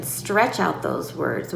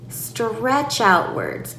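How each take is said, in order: First: Said in the usual way. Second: "stretch out words" slow and drawn out; lengthened, deliberate "stretch out words". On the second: Shown as a demonstration. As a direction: stretch "stretch out words" as you name it.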